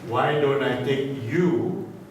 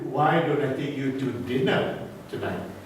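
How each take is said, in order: First: The word you carries the stress. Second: The word dinner carries the stress. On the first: This person is invited rather than someone else. "emphasizing the word you" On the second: The invitation is for dinner rather than lunch. "instead of lunch"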